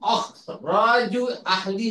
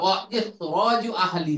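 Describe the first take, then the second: First: The hamza is dropped, joining wa to khraju. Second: The hamza is pronounced, with a separate i sound. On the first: The speaker calls it wrong. "এই জন্য অখরাজু হবে না।" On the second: The speaker calls it right. "হামজাতুল কতই সবসময় উচ্চারিত হবে।"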